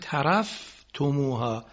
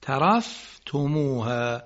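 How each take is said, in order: First: ترفتموها with a silent unvowelled fa; sukun on fa. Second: ترفتموها slowly, fa kept vowelless; sukun on fa. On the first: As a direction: say ترفتموها without a vowel after fa. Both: Shown as a demonstration. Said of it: "ساکن فا".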